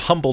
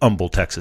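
First: The H at the start is pronounced. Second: The H at the start is silent.

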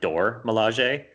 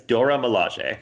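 First: The first word's final vowel is skipped quickly. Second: The first word ends in a clear full vowel. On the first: "they skip by the A really fast, like, and so it kind of sounds like Dor Milaje" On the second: "It's Dora Milaje"

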